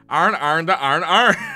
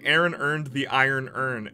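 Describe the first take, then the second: First: All the words merge into 'arn' in a thick Atlanta accent. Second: Each word is said distinctly, with no strong regional accent.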